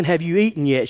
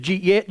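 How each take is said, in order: First: Said in the usual way. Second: "Jeet yet" run together into one quick slurred syllable; "Jeet yet" squashed into one syllable, rising on "yet"; Southern slurred drawl. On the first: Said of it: "basically what she's saying". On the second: Retold or imitated. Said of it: "putting all one syllable".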